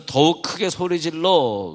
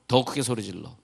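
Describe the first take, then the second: First: Higher-pitched, emphatic retold cry; crying out louder. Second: Said in the usual way. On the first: Preacher retelling the blind man crying louder to Jesus, emphatic cry. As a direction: raise the voice as if crying out.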